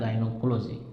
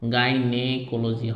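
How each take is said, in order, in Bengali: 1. 'gy' এর পরের স্বরধ্বনিটি 'o' এর মতো শোনায়। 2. 'gy' এর পরের স্বরধ্বনিটি 'e' এর মতো শোনায়। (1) "কিন্তু উচ্চারণ হয় গাইনোকোলজি" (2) "এন এ আছে, গাইনেকোলজি হয়"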